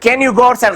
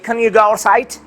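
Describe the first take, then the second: First: Can is said in full with a clear vowel. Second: Can is reduced to a weak unstressed form. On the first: The speaker calls it wrong. "غلط دی" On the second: The speaker calls it right. "په ویک فارم کې به وایي"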